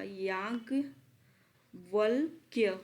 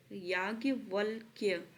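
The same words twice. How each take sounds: First: याज्ञवल्क्य drawn out slowly, syllable by syllable; slow careful pronunciation. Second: याज्ञवल्क्य said again, slowed and falling; a second, still careful read of याज्ञवल्क्य; repeated slowly. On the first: Teacher to students, spelling out याज्ञवल्क्य very slowly. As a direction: stretch out याज्ञवल्क्य so every sound is clear. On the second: Teacher repeating याज्ञवल्क्य slowly for students. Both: Shown as a demonstration. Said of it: "इसको अच्छे से पढ़िएगा".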